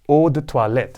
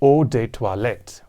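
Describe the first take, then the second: First: It has a French accent with soft T sounds. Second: It has an English accent with hard T and D. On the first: "you've got the French pronunciation as eau de toilette" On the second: "in the English version ... You have the harder T and the harder D"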